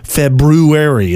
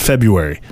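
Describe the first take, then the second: First: The first R is clearly pronounced. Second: The first R is dropped. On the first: The speaker thinks they say it properly. "they'll even put like a little emphasis on that R" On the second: This is how most people say it. "everybody else says it one way"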